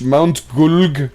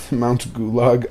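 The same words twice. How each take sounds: First: Mount Gulg said in one syllable, gulg, no middle vowel; corrected name. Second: Mount Gulag said with two syllables, GOO-lahg; wrong name. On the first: Streamer correcting himself to the mountain's real name, Mount Gulg. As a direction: clip Gulg short as one hard syllable. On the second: Streamer misremembering the mountain's name, saying Mount Gulag. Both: Shown as a demonstration. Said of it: "it's not Mount Gulag, it's Mount Gulg".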